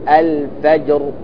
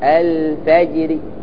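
First: The final r is heavy and fully silent-voweled. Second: The final r is light with a faint i-vowel. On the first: "إذا وقفت بالسكون تفخم الراء تقول الفجر" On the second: "فتكسر الراء بثلث حركة وترققها"

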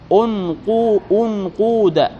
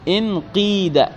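First: The vowels are rounded, with a long oo sound. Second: The vowels are front, with a long ee sound. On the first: "ضمينا الهمزة والقاف" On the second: "كسرنا ماذا؟ الهمزة وماذا؟ والقاف"

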